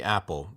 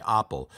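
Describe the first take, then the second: First: Said in the usual way. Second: Apple said AH-pel, open ah instead of a flat A; apple with a broad Italian ah vowel. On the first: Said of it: "there's no long A". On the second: Shown as a demonstration. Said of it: "If you're asking an Italian to say apple".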